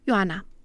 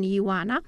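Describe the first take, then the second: First: The i and o merge into one syllable. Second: The i and o form two separate syllables. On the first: "ci cu diftong" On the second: "nu cu hiat"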